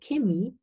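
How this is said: It is said with a southern German pronunciation. The speaker comes from southern Germany. "In the south of Germany, some people say Chemie"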